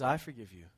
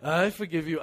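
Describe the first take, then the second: First: Soft, low, sincere "I forgive you", gently meant; mean "I forgive you" with quiet tenderness; sincere forgiveness. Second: Mock grudging "I forgive you" said firmly with a smug edge; grudging forgiveness. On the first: Pretend. Jesus forgiving his tormentors from the cross, sincere and soft. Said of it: "No, he says". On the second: Churchgoer pretending to forgive while wanting revenge, smug. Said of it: "and then you're like".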